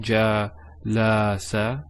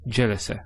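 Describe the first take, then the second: First: A vowel is drawn out long. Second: The vowels are said short and quick. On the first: The speaker calls it wrong. "not jalasa" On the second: The speaker calls it right. "it's just it's a quick sound"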